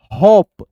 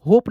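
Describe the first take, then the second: First: होप loud and isolated, vowel held; model reading. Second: होप said quickly with "oh"; reading to avoid. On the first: Teacher shows students the reading, होप loud and held. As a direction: punch out होप as one long syllable. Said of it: "इसको जो है ना होप ही पढ़ना है". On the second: Teacher tells students how not to read it, होप unstressed with "oh". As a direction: say होप in passing, rounded vowel. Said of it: "होप नहीं पढ़ना है". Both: Shown as a demonstration.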